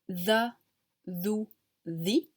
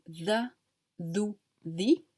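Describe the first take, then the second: First: "the" "thou" "thee" with tongue between teeth; voiced th as in English "the"; English th sound. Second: "the" "thou" "thee" with a voiced English th; tongue between teeth for "the" "thou" "thee"; English th sound. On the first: Teacher compares it to English, voiced th. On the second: Teacher repeats the English-style th. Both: Shown as a demonstration. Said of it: "comme en anglais the".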